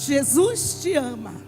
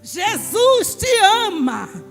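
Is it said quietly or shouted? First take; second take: quietly; shouted. First: It is said at a normal, quiet volume. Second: It is shouted loudly.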